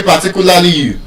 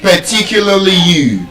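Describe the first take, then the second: First: "particularly" with every vowel full; full-vowelled Nigerian "particularly"; common mispronunciation. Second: "particularly" with weak first syllable and stressed TI; correct schwa pronunciation. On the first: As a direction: say "particularly" with no schwa, open a sounds. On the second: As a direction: reduce the unstressed vowels of "particularly" to schwa. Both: Shown as a demonstration. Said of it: "You don't say particularly you".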